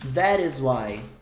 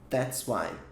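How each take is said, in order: First: Each word is said separately in full. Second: The first two words merge into one syllable.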